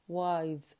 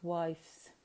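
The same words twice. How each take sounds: First: The word ends with a buzzing z sound. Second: The word ends with a hissing s sound. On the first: The speaker calls it right. "So we pronounce it as wives" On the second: The speaker calls it wrong. "not wives"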